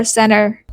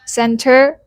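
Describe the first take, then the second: First: "center" as "senner"; disappearing T. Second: Said in the usual way. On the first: Shown as a demonstration. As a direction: say "center" with no T after the n. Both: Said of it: "the T disappears completely in fast speech".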